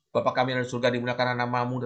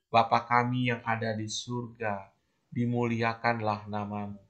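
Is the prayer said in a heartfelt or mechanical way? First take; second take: mechanical; heartfelt. First: It is recited flatly, as a rote formula. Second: It is said slowly, with deep felt meaning. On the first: The words are said only as a ritual. The speaker calls it wrong. "tanpa menghayati ya susah ya" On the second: The words are truly felt and meant. The speaker calls it right. "Tapi kalau dihayati"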